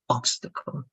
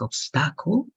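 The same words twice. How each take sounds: First: The stress is on the first syllable. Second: The stress is not on the first syllable. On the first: The speaker calls it right. "The stress has to be in the first part" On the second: The speaker calls it wrong. "it is not going to be like obstacle"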